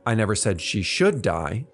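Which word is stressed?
should. The stress falls on the word should. It was not said to be deserved.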